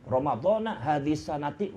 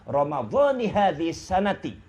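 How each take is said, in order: First: The first word ends with an 'ah' vowel. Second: The first word ends with an 'ee' vowel. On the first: The speaker calls it wrong. "Bukan ramadhana hadhihi sanati. Wah, ini enggak, enggak benar" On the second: The speaker calls it right. "itu yang benar"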